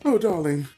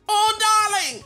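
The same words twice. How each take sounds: First: It is said in the speaker's normal voice. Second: It is said in a screechy, put-on accent.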